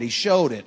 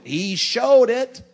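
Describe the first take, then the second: First: Said in the usual way. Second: SHOWED stretched out slowly, much higher and louder; "He showed it" proclaimed slow and high, leaning hard on "showed"; emphatic preacher's cry. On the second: Acted. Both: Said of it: "we know he loved the church 'cause he showed it".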